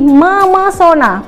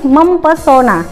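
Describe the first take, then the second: First: No p sound is heard after the m. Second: A p sound is heard after the m. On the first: The speaker calls it right. "maka menjadi memesona" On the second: The speaker calls it wrong. "bukan mempesona"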